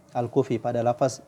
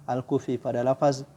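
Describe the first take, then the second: No difference in how they are said.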